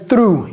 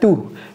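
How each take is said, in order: First: The r sound is clearly pronounced. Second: The r sound is left out. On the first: "Il n'a pas dit through" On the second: "il ne prononce même pas le R"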